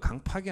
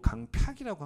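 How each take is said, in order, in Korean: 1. 두 번째 음절은 그냥 'pak'으로 발음합니다. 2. 두 번째 음절은 'pyak'처럼 반모음을 넣어 발음합니다. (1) "강팍이 아니고" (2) "국어사전을 보니까 ... 강팍이라고 합니다"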